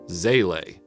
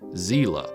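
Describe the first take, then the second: First: The word is said the Japanese way. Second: The word is said the German way. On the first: "The Japanese language version is something like" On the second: "which is the German pronunciation"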